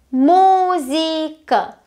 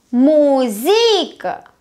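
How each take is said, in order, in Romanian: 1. Accentul cade pe prima silabă. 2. Accentul cade pe o silabă ulterioară. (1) "Prima silabă" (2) "Haideți să-l plasăm și greșit"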